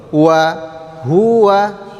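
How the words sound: Pitch starts low, rises on hu, then falls. The speaker calls it right. "Rendah dulu, naik, baru turun"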